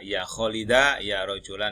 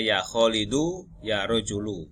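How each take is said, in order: First: The words end with an 'a' vowel. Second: The words end with an 'u' vowel. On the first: The speaker calls it wrong. "tidak bisa dibaca" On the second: The speaker calls it right. "tetap dibaca"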